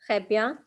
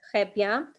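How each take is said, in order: The two takes are said the same way.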